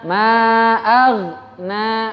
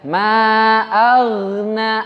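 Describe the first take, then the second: First: The gh sound stops briefly without bouncing. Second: The gh sound flows smoothly with a swinging feel. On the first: The speaker calls it wrong. "Dia nggak mantul, tapi berhenti sebentar" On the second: The speaker calls it right. "Mengayun, mengayun istilahnya"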